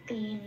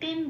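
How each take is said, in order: First: The final vowel is pronounced after n. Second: The final vowel is dropped, ending on n. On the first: The speaker calls it right. "তে ন এটাই বলতে হবে" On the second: The speaker calls it wrong. "তেন বলতে পারবো না"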